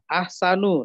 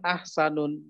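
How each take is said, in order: First: The word ends in a plain vowel. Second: The word ends with an added n sound. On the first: The speaker calls it right. "nah itu ya" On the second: The speaker calls it wrong. "Bukan ahsanun"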